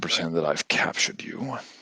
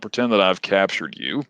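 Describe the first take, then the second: First: It is spoken in a put-on character voice. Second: It is spoken in a natural everyday voice. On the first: "I am gonna use the voice" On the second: "I'll explain it to you in my regular voice"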